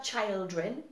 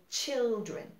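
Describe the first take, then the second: First: Put-on children said with a long "ai", chaildren; children pronounced like "chaildren"; wrong pronunciation. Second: Put-on children with a short i, chil-dren; children said with a short "i" as in "chill"; correct pronunciation. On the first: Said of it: "On dit pas children". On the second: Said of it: "we say children". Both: Shown as a demonstration.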